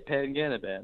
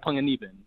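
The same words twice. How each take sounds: First: The name is said with an anglicized pronunciation. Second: The name is said with native Filipino pronunciation. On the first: The listener is assumed to be unfamiliar with the name. "like someone that looks like my mom, I say" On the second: The listener is assumed to know the name's origin. "I say it like the real way"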